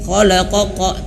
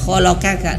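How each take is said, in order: First: Both the middle and final k are heavy. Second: Both the middle and final k are light. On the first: "jangan sampai khalaqoqa, tidak"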